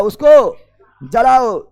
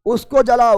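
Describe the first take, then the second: First: उसको जलाओ stretched very slowly, each syllable pulled long; slow emphatic command; drawn out. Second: Said in the usual way. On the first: Shown as a demonstration.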